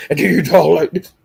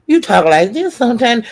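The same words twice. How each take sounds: First: Said in the usual way. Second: Mock high-pitched squeaky talk. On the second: Mimicking his voice to his face, squeaky. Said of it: "they had that squeak".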